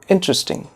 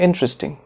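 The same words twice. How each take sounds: The two takes are said the same way.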